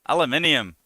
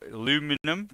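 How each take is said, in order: First: Five syllables, ending in a 'nium' sound. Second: Four syllables, ending in a 'num' sound. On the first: The speaker calls it right. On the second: The speaker calls it wrong.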